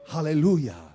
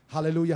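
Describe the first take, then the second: First: It is said with deep, heartfelt feeling. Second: It is said mechanically, without feeling.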